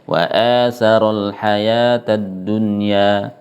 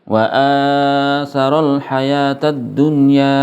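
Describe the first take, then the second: First: The long vowel is held two counts. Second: The long vowel is held too long. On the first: The speaker calls it right. "yaitu dua harakat saja" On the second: The speaker calls it wrong. "Ini kepanjangan"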